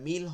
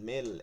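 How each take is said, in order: First: The vowel is a clear 'i' sound. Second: The vowel leans toward an 'e' sound. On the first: The speaker calls it right. "এটা মিল হবে" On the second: The speaker calls it wrong. "মেল একটু একার দিয়ে দিছি"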